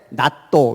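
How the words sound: It has two syllables with an open vowel. "일본 애들은 뭐라 그래? 나또 이래"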